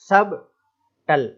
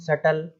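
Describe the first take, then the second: First: The b sound is pronounced before the t. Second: The b sound is silent before the t. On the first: The speaker calls it wrong. "अब सब टल ऐसा नहीं बोलना है" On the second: The speaker calls it right. "केवल पढ़ेंगे हम सटल"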